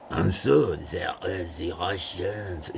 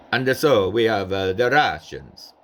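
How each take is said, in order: First: Slow French-accented English; lightly voiced French emperor. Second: Napoleon with a light Italian accent; a hint of an Italian emperor. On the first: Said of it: "instead of". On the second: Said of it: "Napoleon would have had an Italian accent". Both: Shown as a demonstration.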